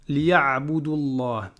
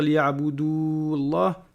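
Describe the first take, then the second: First: The vowel before 'llah' is kept short. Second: The vowel before 'llah' is held long. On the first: The speaker calls it right. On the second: The speaker calls it wrong. "on va pas dire"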